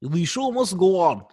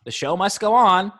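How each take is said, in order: First: Mock Russian accent, higher pitch; the show must go on with a heavy Russian accent. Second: Put-on plain, lightly Russian-accented line; just a hint of a Russian accent, higher. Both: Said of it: "They did in a Russian accent".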